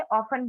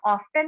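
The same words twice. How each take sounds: First: ऑफन with a silent t; ऑफन, skip the t; correct pronunciation often. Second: ऑफ्टन with the t sounded; ऑफ्टन, pronounce the t; wrong pronunciation often. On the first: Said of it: "ऑफन बोलते हैं". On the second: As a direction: say ऑफ्टन, t clearly heard. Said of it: "इसको हम ऑफ्टन नहीं बोलते". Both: Shown as a demonstration.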